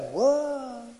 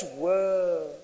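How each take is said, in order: First: Imitating an impressed gasp; hushed mock wow; mock awe. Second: Breathy awe; a hushed wow of amazement; amazed whoa. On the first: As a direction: play the gullible amazed crowd. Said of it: "That is like". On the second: Real, not acted. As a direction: say it like you're stunned. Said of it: "do you hear the wows".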